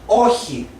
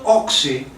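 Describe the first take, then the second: First: The middle consonant is a breathy 'h'-like sound. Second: The middle consonant sounds like 'ks'. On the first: The speaker calls it right. "it's όχι" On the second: The speaker calls it wrong. "the President said oxy. It's not oxy"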